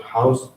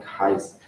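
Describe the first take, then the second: First: Said in the usual way. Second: "highs" for house, with an eye vowel; Welsh-style "highs", rhyming with size; Welsh dialect pronunciation. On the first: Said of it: "the word house may sound like". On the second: Shown as a demonstration. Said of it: "in some Welsh dialects".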